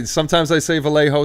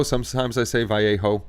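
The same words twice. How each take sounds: First: Vallejo said the Spanish way, vah-YEH-ho; Vallejo, Spanish pronunciation; Spanish-style Vallejo. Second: Vallejo said American-style, va-LAY-ho; Vallejo, American pronunciation; anglicized Vallejo. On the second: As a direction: Vallejo with an English L. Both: Shown as a demonstration.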